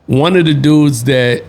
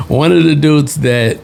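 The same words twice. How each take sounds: The two takes are said the same way.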